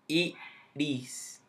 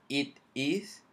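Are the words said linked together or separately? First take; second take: linked; separately. First: The words run together with the t like r. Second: Each word is said separately with a clear t. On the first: "como que si la T fuese una R" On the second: "Así como yo lo digo por palabra"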